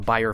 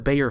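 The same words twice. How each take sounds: First: The name is given its German pronunciation. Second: The name is given an English pronunciation. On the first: The speaker calls it right. "that's how you pronounce it in German" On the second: The speaker calls it wrong. "not the Bayer filter"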